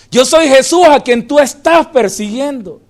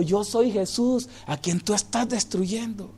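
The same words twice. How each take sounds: First: Louder, ringing proclamation; loud preached repetition; proclaimed second take. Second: Soft, hushed, solemn; quiet solemn statement; hushed first take. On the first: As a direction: declare it to the room. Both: Acted. Same line repeated louder.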